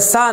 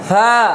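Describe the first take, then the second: First: The consonant is a sharp hissing s sound. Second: The consonant is a soft, weak lisped sound. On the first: The speaker calls it wrong. "তাহলে সা এবার বললে সিনের উচ্চারণ হয়ে যাবে" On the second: The speaker calls it right. "নরম করে"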